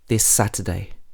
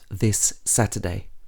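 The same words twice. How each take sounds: First: The words join with the shared sound said once. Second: The words are said separately, each sound clear. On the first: The speaker calls it right. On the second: The speaker calls it wrong.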